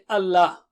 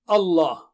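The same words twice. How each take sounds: First: The l sound is light and thin. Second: The l sound is heavy and thick. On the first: The speaker calls it wrong. "don't say Allah" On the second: The speaker calls it right. "So lam should be thick"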